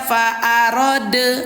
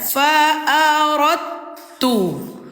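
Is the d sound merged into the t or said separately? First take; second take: separate; merged. First: The d sound is said separately before t. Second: The d sound merges into a doubled t. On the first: The speaker calls it wrong. "jangan lagi dibaca" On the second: The speaker calls it right. "cara membacanya dengan dilebur"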